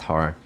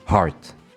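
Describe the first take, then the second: First: The final T sound is dropped. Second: The final T sound is clearly pronounced. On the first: "I don't pronounce the T in heart for some reason" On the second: "So now I'm just gonna do it heart"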